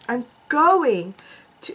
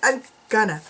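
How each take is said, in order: First: The phrase is said in full as 'going to'. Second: The phrase is reduced to 'gonna'. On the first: The speaker calls it right. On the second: The speaker calls it wrong.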